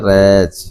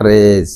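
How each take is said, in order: First: "रेज" with a j sound at the end; correct रेज. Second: "रेज" as the wrong example, with a z-like ending; mispronounced रेज. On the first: Teacher giving the right reading, रेज ending in j. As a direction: say "रेज" closing on j, as in jay. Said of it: "इसको पढ़ा जाता है". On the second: Teacher rejecting a wrong reading, रेज mispronounced. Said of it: "not रेज". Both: Shown as a demonstration.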